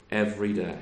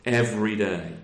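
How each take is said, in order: First: "Every day" repeated quietly, falling; softer echo. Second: Firm falling "Every day"; emphatic. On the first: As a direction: let "Every day" sink into a soft echo. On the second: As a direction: lean on "Every" and let "day" fall. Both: Shown as a demonstration.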